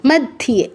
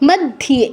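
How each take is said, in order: No difference in how they are said.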